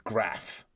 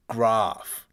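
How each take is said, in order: First: "graph" with a short flat A as in "cat"; Melbourne pronunciation. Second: "graph" with a long, loud British AH; Adelaide pronunciation. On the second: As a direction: say "graph" with the A of "father", drawn out. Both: Shown as a demonstration. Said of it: "not graph".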